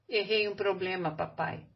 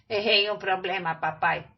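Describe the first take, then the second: First: It is said plainly, as the boy himself. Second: It is said as a mocking imitation of Carlos.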